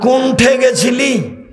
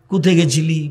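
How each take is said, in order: First: It is said heavily in Chapai Nawabganj dialect. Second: It is said lightly in Bogura dialect.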